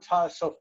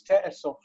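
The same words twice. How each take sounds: First: Ta'asof said with a plain ta-a start, as the form to avoid; wrong form Ta'asof. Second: Te'esof said with an "te-e" opening, as the right form; correct form Te'esof. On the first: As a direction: say Ta'asof with an open "ta-a" opening, marked as wrong. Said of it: "it's not Ta'asof". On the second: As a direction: give Te'esof its proper "te-e" start, correcting. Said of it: "it's not Ta'asof, it's Te'esof". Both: Shown as a demonstration.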